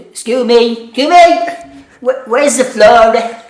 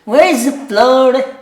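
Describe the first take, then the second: First: High, loud, slow Dublin woman; thick Dublin accent, slow and high; Dublin woman's accent. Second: High, loud, slow Dublin repeat; thick Dublin accent, slow and high; Dublin woman's accent. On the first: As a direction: ham up a thick Dublin customer asking. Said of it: "this Dublin woman". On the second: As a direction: drawl it like the Dublin customer. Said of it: "She goes". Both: Retold or imitated.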